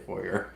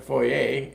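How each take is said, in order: First: It is said the American and Western Canadian way. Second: It is said the Eastern Canadian, French-influenced way.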